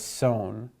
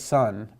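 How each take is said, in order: First: The vowel is long, like in 'sewn'. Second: The vowel is short, like in 'sun'. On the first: The speaker calls it right. "but as sone" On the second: The speaker calls it wrong. "not as son"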